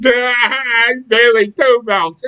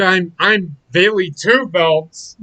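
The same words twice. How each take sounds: First: Slow, higher, louder shouted boast; loud mocking Bayley. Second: Slow, mocking whine of a smug champion; mocking Bayley. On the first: Mocking Bayley again to a friend, slow shouted boast. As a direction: yell the brag like a dumb champion. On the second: Mocking Bayley to a friend, slow and smug. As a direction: drag out the boast like a dim braggart. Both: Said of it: "that's exactly the way she fucking sounds".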